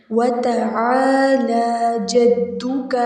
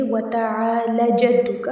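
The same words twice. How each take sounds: First: The ا in تعالی held for two counts; two-beat stretch. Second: تعالی said quickly with the ا after ل cut short; hurried wrong reading of تعالی; wrong short vowel. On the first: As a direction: slowly draw out تعالی before جدک. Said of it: "دو حرکت کھینچ کے پڑھیں گے". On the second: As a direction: clip the ا in تعالی, as the mistake. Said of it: "یہ غلط ادائیگی ہو جائے گی". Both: Shown as a demonstration.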